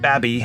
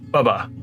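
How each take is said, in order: First: The first vowel is like in 'cab'. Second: The first vowel is like in 'cub'. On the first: The speaker calls it wrong. "it is not Babby, as it looks like B A B I" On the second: The speaker calls it right. "It is Bubba, like the dude next door"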